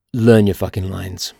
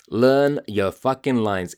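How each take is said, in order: First: Louder, lower punch; angry command. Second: Slower, spelled out; slow emphatic. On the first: Host scolding actors, louder. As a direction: bark the advice at actors. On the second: Host drilling advice into actors, slow. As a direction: lay each word down deliberately. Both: Real, not acted. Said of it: "I'm so angry".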